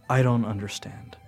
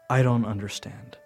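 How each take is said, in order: Both takes have the same delivery.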